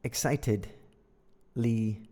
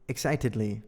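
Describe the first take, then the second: First: Slow, sounded-out "Excitedly"; syllable by syllable. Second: Said in the usual way. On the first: Shown as a demonstration. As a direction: break "Excitedly" into slow parts. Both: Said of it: "So, excited".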